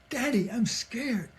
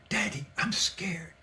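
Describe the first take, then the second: First: Put-on higher, more urgent little-boy plea; escalating scared child. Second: Put-on small, soft voice of a frightened child; imitated scared little boy. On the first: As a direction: imitate a frightened child getting more insistent. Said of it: "then he kept escalating it". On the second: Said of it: "I heard the little boy say".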